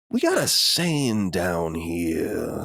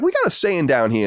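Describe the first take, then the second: First: It is said in a dark, sinister tone. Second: It is said in a plain, friendly tone. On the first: Something offensive is about to be said. "made it more and more sinister" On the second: A harmless folksy remark is coming. "he said it like that"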